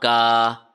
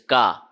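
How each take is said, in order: First: The vowel is stretched long. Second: The vowel is kept short. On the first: The speaker calls it wrong. "not ka" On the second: The speaker calls it right. "ka should not be stretched, even a little bit"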